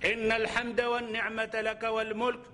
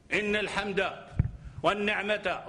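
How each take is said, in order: First: Slow, with no pause from Inna to mulk; the correct delivery, in a single breath; one unbroken phrase. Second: A stop after Inna al-hamda, then another after wa ni'mata; wrong pauses. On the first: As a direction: run Inna al-hamda wa ni'mata laka wal mulk together slowly. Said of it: "Là, on a compris". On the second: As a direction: split the phrase into two cut-off pieces. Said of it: "encore virgule". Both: Shown as a demonstration.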